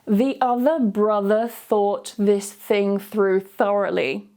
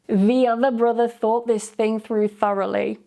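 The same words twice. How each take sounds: First: It is said slowly. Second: It is said at normal speed. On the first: "I'll say it slowly first" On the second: "then I'll say it at a normal speed"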